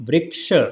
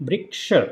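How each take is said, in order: Both takes have the same delivery.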